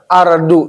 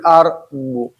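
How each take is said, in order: First: The middle consonant sounds like a plain light d. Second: The middle consonant sounds heavy and thick. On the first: The speaker calls it wrong. "bukan ujung lidah ardu" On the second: The speaker calls it right. "tapi ardu"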